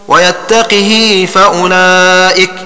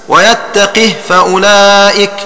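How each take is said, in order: The two takes are said the same way.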